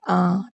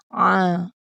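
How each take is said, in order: First: The sound starts with a plain glottal catch. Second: The sound is pressed deep in the throat. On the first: The speaker calls it wrong. "Kalau kita tak tekan, dia akan menjadi seperti huruf hamzah lah" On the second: The speaker calls it right. "Bila berbaris atas, kita kena sebut A"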